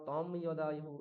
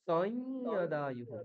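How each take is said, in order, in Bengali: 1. প্রথম শব্দটির শেষে একটি পূর্ণ 'm' ধ্বনি আছে। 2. প্রথম শব্দটির শেষে কোনো পূর্ণ 'm' ধ্বনি নেই।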